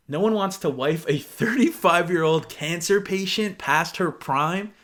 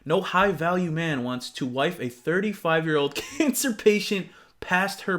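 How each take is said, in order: First: Slow, weighted reread of the insult; disbelieving reread. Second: Said in the usual way. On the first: Retold or imitated. Rereading the guy's insult for viewers, slow and incredulous. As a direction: read it again slowly, letting each word sink in. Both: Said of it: "And this man said".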